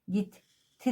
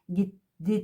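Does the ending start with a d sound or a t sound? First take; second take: t sound; d sound. First: The ending starts with a hard t sound. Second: The ending starts with a soft d sound. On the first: The speaker calls it right. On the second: The speaker calls it wrong.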